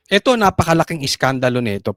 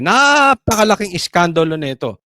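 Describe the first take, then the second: First: Said in the usual way. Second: NAPAKALAKING stretched long on its first syllable; stress on NAPAKALAKING. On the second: Real, not acted. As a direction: draw out the start of "napakalaking" for emphasis. Repeats claim, stretching first word. (idiniin at pinahaba ang unang pantig ng "napakalaking")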